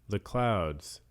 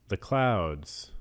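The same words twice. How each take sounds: The two takes are said the same way.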